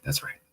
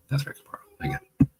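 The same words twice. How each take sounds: First: Said in the usual way. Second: Breathy conspiratorial whisper, voiceless; knowing whisper. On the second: Real, not acted. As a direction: whisper "That's right, Kapar" as a wry aside.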